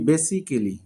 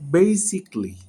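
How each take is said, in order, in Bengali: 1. ly-এর আগে একটি স্বরধ্বনি উচ্চারিত হয়। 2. ly-এর আগে কোনো স্বরধ্বনি উচ্চারিত হয় না। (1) "আমরা বলি বেসিক্যালি" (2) "বাট এটার উচ্চারণ হবে বেসিকলি, দ্যাট মিন্স এখানে এর উচ্চারণটা হচ্ছে না"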